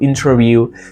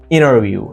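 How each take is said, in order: First: The T after N is pronounced. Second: The T after N is dropped. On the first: "It's not" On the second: "drop T"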